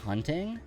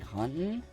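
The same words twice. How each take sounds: First: The T in the middle is clearly pronounced. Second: The T in the middle is dropped. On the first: This is how the speaker talks. "if I were to say" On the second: This is how many local people talk. "get rid of their T's"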